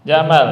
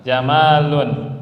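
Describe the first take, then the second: First: Jamal said short and loud, no ending. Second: Jamalun spoken slowly, each syllable held; slow, loud jamalun; drawn-out jamalun. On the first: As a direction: hit Jamal cleanly with no case ending. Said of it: "Antara jamal". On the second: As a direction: stretch out jamalun with the un ending. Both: Shown as a demonstration.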